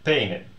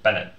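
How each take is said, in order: First: The first vowel differs from the vowel in pen. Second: The first vowel matches the vowel in pen. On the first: The speaker calls it wrong. "they would sound like penen with this sound. And that doesn't sound the same" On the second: The speaker calls it right. "So in order to preserve that, what do we do? We add another n"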